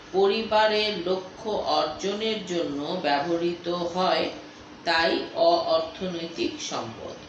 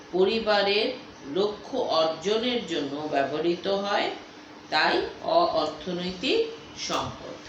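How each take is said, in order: The two takes are said the same way.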